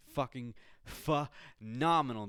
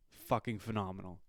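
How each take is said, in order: First: PHENOMENAL slowed and broken after the first syllable; emphatic repeat. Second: Said in the usual way. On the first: Real, not acted. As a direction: punch out "phenomenal" slowly, pausing inside it.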